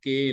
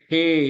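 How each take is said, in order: First: The first consonant is a plain k without breath. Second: The first consonant is k with a puff of breath. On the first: The speaker calls it wrong. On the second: The speaker calls it right.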